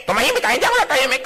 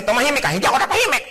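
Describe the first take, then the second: First: High, fast bickering retort; quarrel reply. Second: High, fast bickering; quarrel. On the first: The other spouse snapping the same words back. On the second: Spouses bickering, each shouting the other down. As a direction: snap back in a quarrel. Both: Acted.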